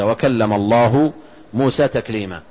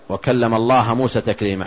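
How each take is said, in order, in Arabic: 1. تنتهي كلمة "الله" بحركة الضمة. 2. تنتهي كلمة "الله" بحركة الفتحة. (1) "الفاعل هو الله، والمفعول هو موسى" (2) "لو قرأتها بالنصب"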